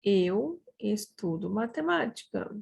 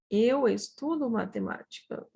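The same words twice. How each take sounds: First: Unhurried, words set apart; measured model sentence. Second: Said in the usual way. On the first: Shown as a demonstration. Teacher shows how we say it, in measured model delivery. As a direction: give each word room for learners.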